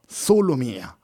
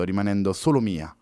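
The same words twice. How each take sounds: First: Proud echo. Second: Said in the usual way. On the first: Acted. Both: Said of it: "esclamò Louise pieno di orgoglio".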